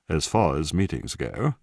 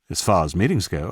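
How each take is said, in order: First: It is spoken in a posh BBC-style accent. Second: It is spoken in an ordinary everyday accent.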